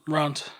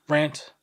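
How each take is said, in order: First: "Rant" with a broad 'ah' vowel; long-A rant. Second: "Rant" with the 'a' of ant; short-A rant. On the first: Answering how to say the word, "Rant" as RAHNT. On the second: Comparing ways to say the word, "Rant" rhyming with ant. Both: Shown as a demonstration. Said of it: "How do you say the word".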